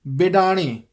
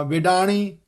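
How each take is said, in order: First: ਬਿਡਾਣੀ opening on a firm b, "bidaani"; initial b. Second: ਬਿਡਾਣੀ opening on v, "vidaani". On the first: Teacher modelling ਬਿਡਾਣੀ starting with b. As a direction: close the lips for the b of ਬਿਡਾਣੀ. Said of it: "ਬੱਬੇ ਦਾ ਧਿਆਨ ਰੱਖਣਾ". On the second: Teacher showing the mistake, ਬਿਡਾਣੀ as "vidaani". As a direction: swap the first b of ਬਿਡਾਣੀ for v. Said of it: "ਵਾਵੇ ਦਾ ਉਚਾਰਨ ਨਹੀਂ". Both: Shown as a demonstration.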